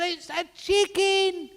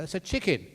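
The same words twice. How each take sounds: First: Very high, loud, stretched-out shriek; over-the-top quarrelling screech; hammed-up yell. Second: Said in the usual way. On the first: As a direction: yell it slowly as a furious mock wife. Wife yelling at quarrel's climax.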